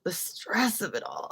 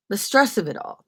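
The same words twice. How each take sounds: First: Slow breathy whisper, dropped soft. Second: Said in the usual way. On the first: Shown as a demonstration. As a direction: whisper it like a secret.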